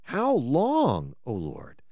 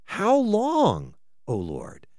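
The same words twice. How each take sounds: First: Quieter echo of the cry, falling to almost nothing; softer lament. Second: Rising cry that drops away to a hush; lament. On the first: Pastor echoing the psalmist's plea, softer and fading. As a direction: repeat it gently, sinking at the end. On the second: Pastor voicing the psalmist's cry to God, falling away. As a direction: plead the question, let it fall. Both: Acted.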